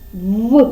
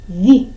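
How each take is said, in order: First: The consonant is hard, without palatalization. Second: The consonant is soft, with palatalization. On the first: "Твердий, вірно" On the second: "зробимо цей звук м'яким"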